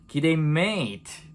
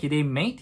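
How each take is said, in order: First: The word 'mate' is stretched out long. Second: The word 'mate' is said short. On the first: The speaker is greeting a close friend. "친한 표현을 하는 게 ... 메이트를 길게 쭉 뺄수록 친밀도가 있는 거예요" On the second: The speaker is greeting someone not yet close. "처음에는"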